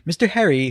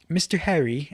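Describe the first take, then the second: First: It is said in a put-on British accent. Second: It is said in a plain American accent.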